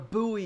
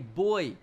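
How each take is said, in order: First: It is pronounced the American way. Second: It is pronounced the British way. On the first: The speaker calls it wrong. "it's not a buoy, you American pig" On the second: The speaker calls it right. "it's a buoy"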